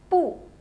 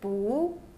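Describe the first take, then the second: First: The pitch falls sharply from high. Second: The pitch rises from mid to high.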